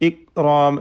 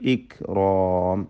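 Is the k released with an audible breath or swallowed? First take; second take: swallowed; breathy. First: The k is swallowed with no breath. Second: The k is released with an audible breath. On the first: The speaker calls it wrong. "തീരെ കാഫിനെ കേൾപ്പിക്കാതെ അതിൻ്റെ ഹംസ് പോയി പോക്കിക്കൊണ്ട് ഉച്ചരിക്കരുത്" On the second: The speaker calls it right. "ഹംസ് വേണം"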